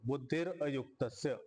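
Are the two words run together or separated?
separated. The two words are said separately with a break.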